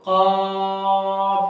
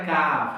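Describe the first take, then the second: First: কফ held long with a back-of-throat Q and rounded vowel; drawn-out deep কফ. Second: কাফ with a thin front K and open "aa"; wrong front-K কাফ. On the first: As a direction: stretch কফ out on one level tone. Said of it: "তো কফটা আমরা একটু টেনে বলবো". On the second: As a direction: say কাফ with the lighter K, as the mistake to avoid. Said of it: "কফ বলবো না কাফ". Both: Shown as a demonstration.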